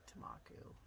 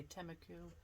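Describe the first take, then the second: First: Tamaku with an open "mah" in the middle; Tamaku, reduced first syllable, then "MAH-koo"; alternative pronunciation. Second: Temaku with a short "tem" opening syllable; Temaku, starting on a clear "tem"; alternative pronunciation. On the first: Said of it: "Some people say Tamaku". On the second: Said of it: "Some people say Temaku". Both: Shown as a demonstration.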